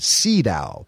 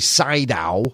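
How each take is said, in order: First: The name is said the native way. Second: The name is said the common American way. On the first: This is how the man himself says it. The speaker calls it right. "that is the correct pronunciation" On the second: This is how many people in the States say it. The speaker calls it wrong. "A lot of us say Sydow, especially here in the States"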